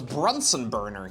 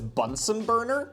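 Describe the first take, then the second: First: The first word has an r after the B. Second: The first word has no r after the B. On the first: The speaker calls it wrong. "I've been mispronouncing this my entire life" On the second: The speaker calls it right. "You're telling me now it's Bunsen Burner?"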